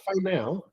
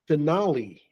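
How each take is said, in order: First: The word ends with a 'now' sound. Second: The word ends with a 'lee' sound. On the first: The speaker calls it wrong. "So not fine now" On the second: The speaker calls it right. "The pronunciation is finale"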